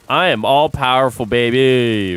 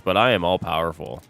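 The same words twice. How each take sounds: First: Louder, grand mock boast; mock proclamation. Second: Said in the usual way. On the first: Streamer boasts to chat of his powers, louder mock proclamation. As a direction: proclaim it like a cartoon villain. Jokingly claims to sway US elections.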